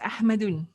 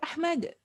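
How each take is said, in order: First: The '-un' ending is pronounced. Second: The '-un' ending is dropped. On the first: The speaker calls it wrong. "Originally is Ahmadun" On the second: The speaker calls it right. "the Arabs will call you Ahmad"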